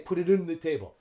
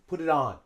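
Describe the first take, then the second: First: The vowel in 'on' is reduced to schwa. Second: The vowel in 'on' is a full short O. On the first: The speaker calls it wrong. "We don't use schwa. We don't say" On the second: The speaker calls it right. "We use the short O sound here"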